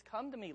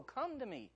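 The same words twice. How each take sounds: First: Gentle plea. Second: Higher still, aching pleading call; yearning plea. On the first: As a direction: coax them home tenderly. God's invitation voiced. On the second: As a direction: reach out like a father begging. God's invitation repeated. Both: Acted.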